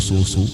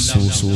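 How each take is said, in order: Both takes have the same delivery.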